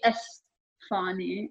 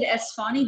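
First: The s is lisped like a th sound. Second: The s is a plain hissing s sound. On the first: This is how people from that city say it. "They say Esfahani. Like with the TH" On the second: This is the usual pronunciation. "They don't even pronounce it Esfahani"

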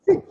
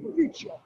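First: It is said with a classical Latin pronunciation. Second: It is said with an Italian pronunciation.

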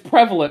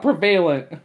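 First: The middle syllable is a short, weak 'vuh'. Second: The middle syllable sounds like 'vail'. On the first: The speaker calls it right. "It's prevalent" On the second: The speaker calls it wrong. "not prevalent"

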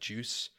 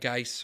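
First: The name sounds like the word juice. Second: The name does not sound like juice.

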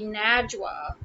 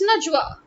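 First: The first vowel does not sound like 'nudge'. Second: The first syllable sounds like 'nudge'. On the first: The speaker calls it wrong. "why does my name Najwa have to be Najwa?" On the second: The speaker calls it right. "It's Najwa. Think of the word nudge"

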